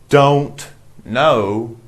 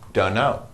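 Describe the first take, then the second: First: The T in 'don't' is pronounced. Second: The T is dropped, blending into 'dunno'. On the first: "It means don't know" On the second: "we don't pronounce the T. We just say"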